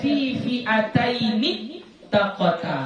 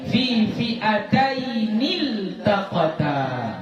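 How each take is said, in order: First: A doubled T is heard before taqata. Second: An L sound is heard before taqata. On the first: The speaker calls it wrong. "Enggak boleh dibaca" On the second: The speaker calls it right. "Jadi bacanya fi fi'atainil"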